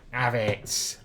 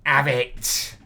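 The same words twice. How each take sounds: First: Said in the usual way. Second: Louder taunt. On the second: Real, not acted. Taunting the opponent.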